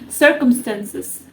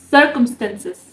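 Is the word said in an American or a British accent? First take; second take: British; British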